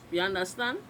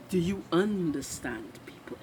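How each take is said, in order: First: "you understand" run together quickly, Trinidadian style; shortened Trinidadian pronunciation. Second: "Do you understand" spelt out word by word; full, unshortened pronunciation. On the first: Vlogger slips into dialect for viewers, "you understand" shortened. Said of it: "We shorten everything in Trinidad". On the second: Vlogger clarifying for viewers, "Do you understand" carefully unshortened. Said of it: "We chop up the English language". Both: Shown as a demonstration.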